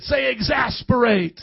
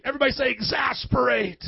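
First: Slow, fed-up call to say it; exasperated. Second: Said in the usual way. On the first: Shown as a demonstration. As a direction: sound worn out and fed up. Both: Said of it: "You gotta say it like you're exasperated".

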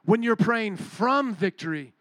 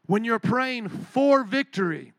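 First: FROM drawn out and punched in a slow phrase; slow down and lean hard on "from"; weighty emphasis on the word FROM; stress on FROM. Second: FOR drawn out and punched in a slow phrase; slow down and lean hard on "for"; weighty emphasis on the word FOR; stress on FOR. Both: Shown as a demonstration. Contrasts two ways of praying.

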